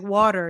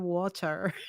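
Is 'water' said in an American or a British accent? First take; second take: American; British. First: It is said with an American accent. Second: It is said with a British accent. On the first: This is how the child raised on American TV says it. "like water" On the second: This is how a child in Britain is expected to say it. "instead of water"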